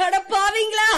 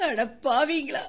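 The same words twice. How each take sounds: First: Louder, higher anguished curse; louder outcry. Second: Low sobbing curse; tearful cry. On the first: Widow to her brother-in-law, crying out louder. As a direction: cry it out louder. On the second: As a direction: weep out the words. Widow cries at betrayal. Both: Acted.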